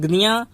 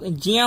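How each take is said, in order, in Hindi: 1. अक्षर g और उसके बाद n से शुरू होता है। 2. अक्षर j की आवाज़ से शुरू होता है। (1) "गुजरात में चले जाओगे तो" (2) "शुरू में ज ही आना चाहिए"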